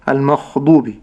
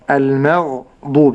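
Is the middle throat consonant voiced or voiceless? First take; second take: voiceless; voiced. First: The throat consonant is voiceless and rasping. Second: The throat consonant is voiced and gargled. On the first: The speaker calls it wrong. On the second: The speaker calls it right.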